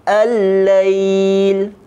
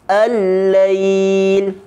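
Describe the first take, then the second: Both takes have the same delivery.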